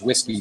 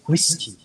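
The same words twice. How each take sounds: First: The word is said with English pronunciation. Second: The word is said with Korean pronunciation. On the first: "our pronunciation is whiskey" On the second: "in Korean you have to, based on the phonology and the letters"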